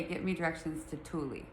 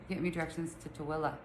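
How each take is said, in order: First: "Thule" said as "TOO-lee"; pronounced as spelled. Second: "Tooele" as "tuh-WILL-uh"; local pronunciation. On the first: Rewording it so Siri understands, "Thule" as "TOO-lee". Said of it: "So I have to say". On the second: Asking Siri for directions, "Tooele" as "tuh-WILL-uh". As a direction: say "Tooele" the Utah way, "tuh-willa". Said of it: "she gets me directions to T A W I L A". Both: Pretend.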